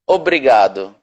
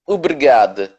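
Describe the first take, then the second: First: It is said with a Brazilian Portuguese accent. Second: It is said with a European Portuguese accent.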